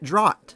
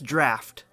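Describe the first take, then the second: First: The word does not sound like 'draft'. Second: The word sounds like 'draft'. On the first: The speaker calls it wrong. "I pronounced it draught" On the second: The speaker calls it right. "is pronounced draft"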